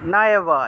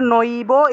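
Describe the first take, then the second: First: The first vowel sounds like a long 'aa'. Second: The first vowel sounds like 'oi'. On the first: The speaker calls it right. "এভাবে উচ্চারণটা হবে" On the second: The speaker calls it wrong. "এটা আসলে নইবো এভাবে হবে না"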